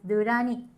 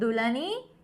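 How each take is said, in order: First: The third syllable starts with an R sound. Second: The third syllable starts with an L sound. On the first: The speaker calls it right. "You need to say as Durani. La becomes ra" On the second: The speaker calls it wrong. "my name in Japanese, it's not Dulani"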